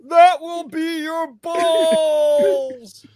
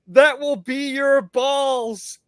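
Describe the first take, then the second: First: It is said in an imitated Patrick voice. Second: It is said in the speaker's normal voice.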